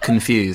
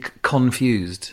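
First: The stress is on the second syllable. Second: The stress is on the first syllable. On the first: It is the usual way of saying it. "and not confused" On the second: It is the old Yorkshire way of saying it. "I hit con"

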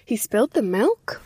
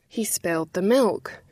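First: The voice rises at the end, as a question. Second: The voice falls at the end, as a statement.

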